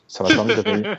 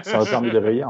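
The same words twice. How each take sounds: First: Sarcastic. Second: Laughing. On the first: Sarcastic jab at Divac. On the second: Sarcastic jab, laughing. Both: Real, not acted.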